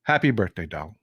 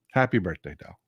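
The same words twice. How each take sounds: First: Said in the usual way. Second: Softer, lower birthday wish; a softer, fond repeat; tender birthday wish. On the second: Real, not acted. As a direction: say it gently, like to a dear friend.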